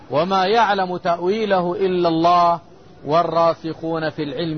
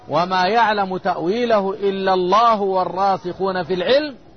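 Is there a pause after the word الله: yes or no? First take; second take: yes; no. First: There is a pause after the word الله. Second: It runs on without a pause after الله. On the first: Only God knows its interpretation; the learned are not included. "على ضوء قراءتي الوقف والوصل" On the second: The firmly grounded in knowledge also know its interpretation. "قراءة الوصل"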